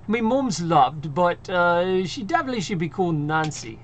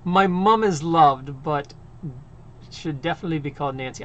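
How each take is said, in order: First: It is said in a put-on British accent. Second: It is read in her normal American accent.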